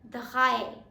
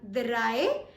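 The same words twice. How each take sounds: First: The R is a German-style R sound. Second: The R is an English-like R sound. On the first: The speaker calls it right. "Germans pronounce R differently" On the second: The speaker calls it wrong. "We are not pronouncing it as drei"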